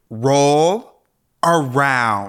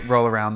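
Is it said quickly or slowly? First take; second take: slowly; quickly. First: It is said slowly. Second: It is said quickly.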